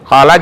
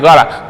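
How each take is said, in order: First: The word begins with a k sound. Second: The word begins with a g sound. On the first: The speaker calls it right. "huruf ka itu, kaf" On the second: The speaker calls it wrong. "dia nggak bisa huruf ka itu"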